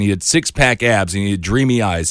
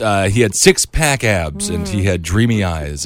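First: The line is spoken at a normal pace. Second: The line is spoken at a slower pace.

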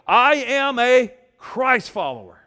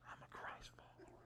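First: It is said boldly and confidently. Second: It is said timidly and quietly.

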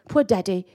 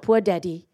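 First: It is said in a British accent. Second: It is said in the speaker's normal accent.

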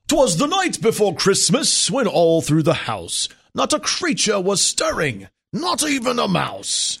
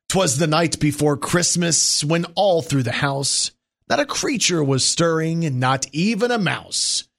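First: It is read in a put-on accent. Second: It is read in a normal voice.

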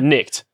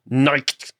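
First: It is said in a plain English accent. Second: It is said in a put-on German accent.

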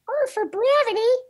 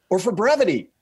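First: It is said in a put-on voice. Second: It is said in a normal voice.

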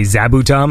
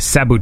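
First: The name begins with a buzzing Z sound. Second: The name begins with a hissing S sound. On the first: "because we say Z, right? So we would say Zabutum" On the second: "he said it with an S sound"

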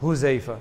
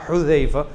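First: The first h is a plain breathy sound. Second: The first h is a raspy throaty sound. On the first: The speaker calls it wrong. "They say who?" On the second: The speaker calls it right. "it's supposed to be ha Hudhaifa"

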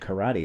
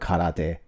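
First: It is pronounced with English-style sounds. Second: It is pronounced with Japanese-style sounds. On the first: "I say like karaoke and karate. Like, because I'm speaking English" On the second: "don't say karaoke or karate"

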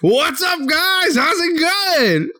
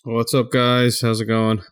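First: It is said lively, with more enthusiasm. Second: It is said flatly, with little enthusiasm.

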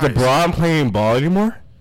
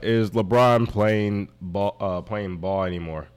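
First: It is read in an excited, high-energy voice. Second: It is read in a flat, low-energy voice.

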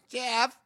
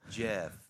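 First: The name is said in a weird voice. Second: The name is said in a normal voice. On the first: The phone does not recognize the owner. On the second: The phone recognizes the owner and unlocks.

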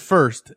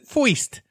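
First: The vowel sounds like 'er', as in 'fur'. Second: The vowel sounds like 'oy', as in 'foist'. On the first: This is the ordinary way of saying it. "No one said first" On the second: This imitates how people talked in old movies. "Because everyone said"

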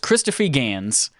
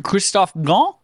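First: The name is said with an American accent. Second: The name is said with a French accent.

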